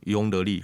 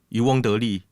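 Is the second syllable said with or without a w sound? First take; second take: without w; with w. First: The second syllable begins with a plain vowel. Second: The second syllable begins with a w sound. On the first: It reflects how many Taiwanese people say it. "we say ong" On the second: It reflects the standard pronunciation. "instead of wong"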